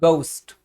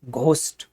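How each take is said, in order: First: गोस्ट with a plain g and no aspiration; English reading. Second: घोस्ट with a breathy gh as Indians read it. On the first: Teacher showing how the English read गोस्ट. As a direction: drop the h and say गोस्ट. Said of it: "अगर हम H को हटा दे तो ये हो गया". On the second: Teacher showing the Indian reading of घोस्ट. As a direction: read घोस्ट with a full aspirated घ. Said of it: "तो हम इसको क्या पढ़ते थे". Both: Shown as a demonstration.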